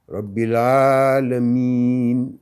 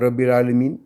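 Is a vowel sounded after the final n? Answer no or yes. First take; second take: no; yes. First: The final letter is silent after the n. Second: The final letter is sounded after the n. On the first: The speaker calls it right. "Quand je respecte" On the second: The speaker calls it wrong.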